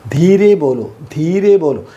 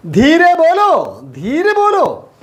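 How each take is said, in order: First: Said in the usual way. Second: Slow, high sing-out of the phrase; drawn-out high teaching model; high-pitched drill. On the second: Shown as a demonstration. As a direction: lift it right up and stretch the vowels. Same phrase drilled again, much higher.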